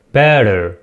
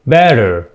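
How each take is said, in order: Both takes have the same delivery.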